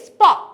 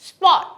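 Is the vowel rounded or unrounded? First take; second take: rounded; rounded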